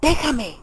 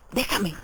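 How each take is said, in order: First: Higher, louder heartrending cry; anguished outburst. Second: Understated anguished plea; a touch of sudden anguish. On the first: Raskolnikov cries out to Sonia to leave him, in loud anguish. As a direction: burst out in anguish, pleading to be left alone. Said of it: "con acento desgarrador". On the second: Raskolnikov begs Sonia to leave him, with restrained anguish. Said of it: "exclamó de pronto con acento desgarrador". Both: A narrator's reading.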